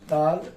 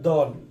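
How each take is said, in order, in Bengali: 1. স্বরধ্বনিটি খোলা 'a' উচ্চারণ। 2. স্বরধ্বনিটি গোলাকার 'o' উচ্চারণ।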